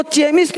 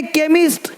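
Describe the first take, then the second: First: चेमिस्ट with a ch sound at the start, pitched higher; wrong pronunciation. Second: केमिस्ट with a hard k at the start; correct pronunciation. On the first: Teacher warning against misreading chemist, wrong pronunciation. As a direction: misread चेमिस्ट as "CHE-mist", ch as in chair. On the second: Teacher giving the right reading of chemist, correct pronunciation. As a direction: say केमिस्ट as "KE-mist", k rather than ch. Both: Shown as a demonstration. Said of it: "इसको चेमिस्ट नहीं पढ़ेंगे".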